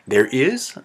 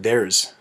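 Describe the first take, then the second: First: Two separate full words are said. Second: The two words are squeezed into one.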